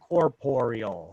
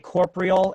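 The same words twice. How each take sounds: First: The word has an extra vowel syllable before the end. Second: The word ends in two syllables, without an extra vowel. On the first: The speaker calls it right. "there's another O in there" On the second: The speaker calls it wrong. "I always used to say corporeal and incorporeal"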